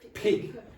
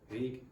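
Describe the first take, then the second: First: The first p has a strong puff of air. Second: The first p has no puff of air. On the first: The speaker calls it right. "You must aspirate these sounds" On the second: The speaker calls it wrong. "If you don't, ... You'll say pig"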